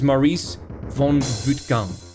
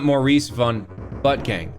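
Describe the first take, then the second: First: The last name has a foreign, Dutch-like sound. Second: The last name sounds like English 'butt gang'. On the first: The speaker calls it right. "His name is Maurice von Buttgang, okay? Buttgang. It's, I don't know, Dutch?" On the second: The speaker calls it wrong. "his name is not Maurice von Butt Gang"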